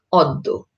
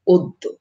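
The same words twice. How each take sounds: First: অদ্য with an open ɔ first vowel; অদ্য read as spelled, ɔddo; read as written. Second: অদ্য with an o first vowel, oddo; অদ্য said the spoken way; spoken pronunciation. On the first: (অদ্য লিখিত রূপে) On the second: (অদ্য ও-কারের মতো উচ্চারণে) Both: Shown as a demonstration. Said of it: "জফলা যুক্ত হবে তখন".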